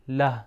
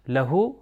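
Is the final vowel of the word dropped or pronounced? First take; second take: dropped; pronounced. First: The word ends on the consonant, no vowel. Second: The word ends with a final vowel sound. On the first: The speaker calls it right. "اس کے لیٹر کی حرکت کو نہیں پڑھا جاتا" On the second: The speaker calls it wrong. "لہو نہیں کہیں گے"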